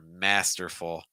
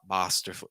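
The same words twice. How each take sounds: First: The first vowel is like the vowel in 'cat'. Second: The first vowel is a broad British 'ah'. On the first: The speaker calls it right. "It's more masterful, ... more ah ma masterful" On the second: The speaker calls it wrong. "So it's not masterful"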